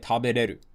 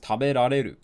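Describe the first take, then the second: First: The 'ra' syllable is left out. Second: The 'ra' syllable is fully pronounced. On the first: "a ra was removed" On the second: "it becomes taberareru"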